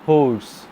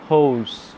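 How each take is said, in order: Both takes have the same delivery.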